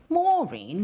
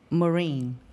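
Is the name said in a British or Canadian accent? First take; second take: British; Canadian. First: The name is said in a British accent. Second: The name is said in a Canadian accent.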